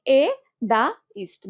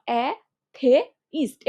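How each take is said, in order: First: এ, দা, ইস্ট with দা in the middle; middle syllable as দা. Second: এ, থে, ইস্ট with aspirated থে in the middle; middle syllable as থে. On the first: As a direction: sound out এ, দা, ইস্ট in three parts. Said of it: "দাটাকে তুমি থেও উচ্চারণ করতে পারো". (এ, দা, ইস্ট, মাঝখানে দা উচ্চারণ) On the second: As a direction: sound out এ, থে, ইস্ট in three parts. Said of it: "এভাবে করতে পারো". (এ, থে, ইস্ট, মাঝখানে থে উচ্চারণ) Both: Shown as a demonstration.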